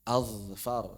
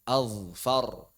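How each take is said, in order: Both takes have the same delivery.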